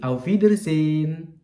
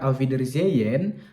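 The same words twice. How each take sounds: First: The h is silent and the vowel long. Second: The h in the middle is sounded. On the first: The speaker calls it right. "huruf vokalnya akan dibaca panjang, makanya hanya lesap" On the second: The speaker calls it wrong. "bukan Auf Wiedersehen"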